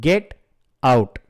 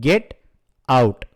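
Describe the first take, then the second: The two takes are said the same way.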